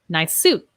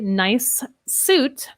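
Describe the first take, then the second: First: The two S sounds merge into one. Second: The two S sounds are said separately. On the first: The speaker calls it right. "let's link them" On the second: The speaker calls it wrong. "I would not say"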